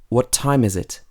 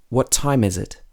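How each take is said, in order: Both takes have the same delivery.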